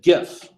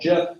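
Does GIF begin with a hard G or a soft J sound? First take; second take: hard G; soft J. First: It begins with a hard G sound. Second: It begins with a soft J sound. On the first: The speaker calls it right. "I am going to still pronounce it GIF. It is graphic image file" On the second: The speaker calls it wrong. "He wants to call it GIF"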